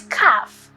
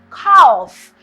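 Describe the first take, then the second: First: CALF with the L left silent. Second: CALF with the L wrongly sounded; mispronounced calf. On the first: Spelling teacher giving the correct word, CALF with silent L. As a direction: say CALF without any L sound. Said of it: "the L is silent". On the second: Spelling teacher showing a common mistake, CALF with sounded L. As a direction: put an audible L into CALF. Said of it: "it's commonly mispronounced as calf". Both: Shown as a demonstration.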